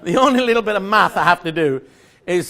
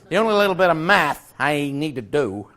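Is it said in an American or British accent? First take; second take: British; American. First: It is said in a British accent. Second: It is said in an American accent.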